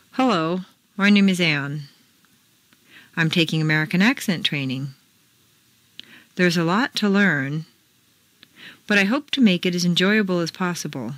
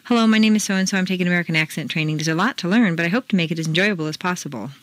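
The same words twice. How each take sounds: First: "Hello, my name is Anne" with clear peaks and valleys; strong American intonation. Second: Fast, run together, peaks and valleys lost; the wrong way, fast; rushed choppy reading. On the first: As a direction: read it smoothly with flowing peaks and valleys. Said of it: "Repeat the paragraph after me". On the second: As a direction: rush through "I'm taking American accent training" like a bad reader. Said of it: "reading the paragraph ... like this". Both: Shown as a demonstration.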